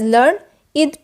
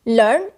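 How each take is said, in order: First: The word is said as two syllables. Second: The word is said as one syllable. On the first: It is a describing word. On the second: It is an action word.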